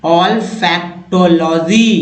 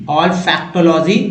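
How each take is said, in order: First: Olfactology stretched out, each syllable separate; teacher modelling olfactology slowly. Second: Said in the usual way. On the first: Shown as a demonstration. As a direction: break olfactology into slow syllables. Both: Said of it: "उच्चारण करना सीख रहे हैं".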